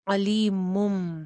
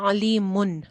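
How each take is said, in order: First: The word ends with an m sound. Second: The word ends with an n sound. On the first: The speaker calls it right. "फिर हम नून नहीं पढ़ेंगे बल्कि मीम पढ़ेंगे" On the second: The speaker calls it wrong. "यहां पे था अलीमुन"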